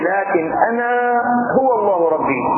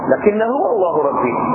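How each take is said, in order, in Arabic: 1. تُقال 'lakin' و'ana' ككلمتين منفصلتين. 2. تُدمج 'lakin' و'ana' في كلمة واحدة هي 'lakinna'. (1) "هي أصلا" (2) "حذفت همزة أنا"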